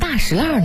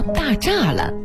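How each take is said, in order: First: The name uses its special old local reading. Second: The name uses the ordinary reading of its characters. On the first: This is the traditional place-name reading that keeps an old pronunciation. The speaker calls it right. "它的读音呢属于地名的特殊读音，历史悠久的大石烂读法呢属于保留古音的读法" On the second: This is how the characters are normally read elsewhere. The speaker calls it wrong. "而不叫大栅栏"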